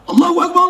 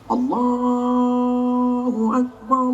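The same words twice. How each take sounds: First: It imitates a soldier calling. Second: It imitates an office head calling.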